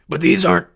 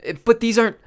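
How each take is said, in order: First: Nervous waitress. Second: Higher, loud nervous protest; nervous waitress, retake. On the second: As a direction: stammer it out, scared of him. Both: Acted.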